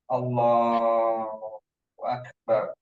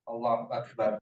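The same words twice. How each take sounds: First: The phrase is said slowly and calmly. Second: The phrase is said quickly and hastily. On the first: The speaker calls it right. "Selambat itu" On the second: The speaker calls it wrong. "Tolong jangan lagi"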